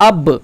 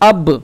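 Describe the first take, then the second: First: The final b bounces out with an echo. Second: The same.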